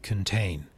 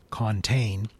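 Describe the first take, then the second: First: "contain" with weak schwa kən; "contain" with a reduced first syllable, kən. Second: "contain" with a clear full o in con; "contain" said the wrong way, full open vowel. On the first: Teacher shows the right schwa way to say contain. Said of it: "it becomes". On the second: Teacher shows the wrong way to say contain. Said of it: "instead of saying contain". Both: Shown as a demonstration.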